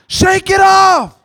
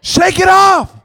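First: Slow, drawn-out shouted shake it off. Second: Higher, louder, rallying call; loud exhortation. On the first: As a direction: shout it slowly, stretching every word. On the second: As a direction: call it out to the pews. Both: Real, not acted. Preacher urging congregation.

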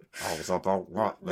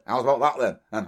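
First: Slow, low, softer creepy catchphrase; Jimmy Savile. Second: Put-on cuddly old daft DJ catchphrase; Jimmy Savile. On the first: Acted. Heard at night in a dark hospital ward, slow creepy impression. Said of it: "That's terrifying. If you were at night". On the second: Recalling the old radio days, a daft DJ catchphrase impression. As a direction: impersonate a harmless old radio personality. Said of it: "Jimmy Savile, when he was".

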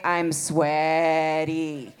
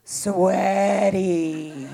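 First: I'm sweaty very slow, falling. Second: Sweaty slowly stretched and falling; drawn-out sweaty. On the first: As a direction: drag I'm sweaty out heavily. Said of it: "by the way". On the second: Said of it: "I am". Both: Acted.

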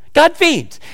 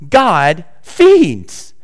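First: God feeds jumps high, GOD stressed; emphatic repeat. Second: Said in the usual way. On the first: Shown as a demonstration. Preacher repeating God feeds for emphasis to the congregation, high.

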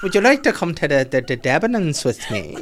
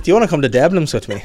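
First: Halting mock Irish, slowing and breaking into laughter; second stab at a badly faked Irish accent, stumbling. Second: Higher, louder mock Irish accent; badly faked Irish, on the edge of laughing. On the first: Friend redoes the invitation to the Debs, halting bad Irish accent. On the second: Friend mimics the boy asking her out, bad Irish accent. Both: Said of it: "That's the worst Irish accent I've ever done".

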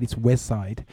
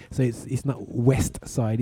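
First: "West Side" with the T in "West" dropped; "West Side", T swallowed. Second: Said in the usual way. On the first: Shown as a demonstration. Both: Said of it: "West Side without the T".

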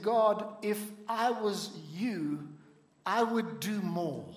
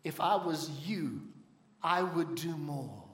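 First: Slow, humble plea, barely above his own voice; a mild, modest request to God; understated humble plea; with humility. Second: Lower, softer and slow, a gentle voice of God; a calm divine answer handed back; lightly voiced God, lower and slow. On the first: Retold or imitated. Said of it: "he said it with humility". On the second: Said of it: "God said to him".

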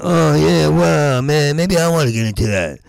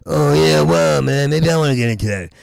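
First: Mock enthusiastic. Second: Rushed, throwaway repeat of the fake interest; faster mock enthusiasm. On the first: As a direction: act keen on volleyball, overdoing it. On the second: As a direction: toss it off quickly. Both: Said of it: "And I went".

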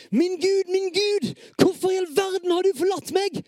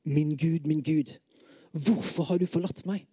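First: High, loud desperate shout to God; raised, pleading outcry; anguished cry. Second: Said in the usual way. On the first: Acted. Same psalm line, anguished second take.

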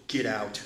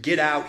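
First: Said in the usual way. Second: A firm, louder "Get out", clipped at the end; forceful command. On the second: Retold or imitated. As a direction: throw them out with authority. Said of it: "So forceful".

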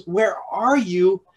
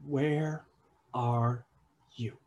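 First: Slow, carrying call. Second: Soft, slow, searching question; a father quietly seeking his hidden children; gentle call. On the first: God calling to those he calls his own, slow and open. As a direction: reach out across the distance, openly inviting. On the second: God softly asking the hiding pair, slow and gentle. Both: Acted.

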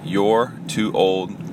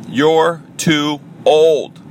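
First: Put-on "You're too old?" softer and slow, as a doubtful question; question-mark delivery. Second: Put-on "You're Too Old!" high and drawn out, each word landing; exclamation-point delivery. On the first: Host rethinking his podcast title, questioning it slowly. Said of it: "question mark". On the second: Host announcing his podcast title, exclaiming it. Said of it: "Exclamation point". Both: Shown as a demonstration.

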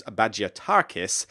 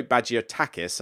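First: Bagiatakis said with an R-coloured TAR, ba-jia-TAR-kis; mistaken added R. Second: Bagiatakis with a short TAK, ba-jia-TAK-is; corrected, no R. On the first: Naming the designer, Bagiatakis slipped into ba-jia-TAR-kis. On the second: Correcting the designer's name, Bagiatakis as ba-jia-TAK-is. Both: Real, not acted. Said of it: "don't think there's an R".

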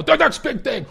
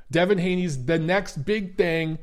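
First: High, loud impression of a hyped boxing analyst; hammed-up fight-commentator call; Teddy Atlas impression. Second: Said in the usual way. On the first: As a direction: proclaim it like an excited ringside pundit. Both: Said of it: "Oh, Teddy Atlas".

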